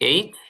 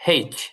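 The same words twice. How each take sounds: First: The name starts with a vowel, no h sound. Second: The name starts with an audible h sound. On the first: "যেটা আমরা স্বাভাবিকভাবে বলি" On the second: "মানে হয় একার এইচ"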